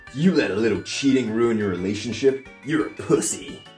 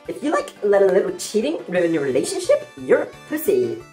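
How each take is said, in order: First: It is said in the speaker's normal voice. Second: It is said in a put-on VSCO girl voice.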